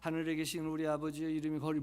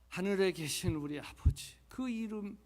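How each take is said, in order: First: It is rattled off fast without feeling. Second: It is said slowly and deliberately.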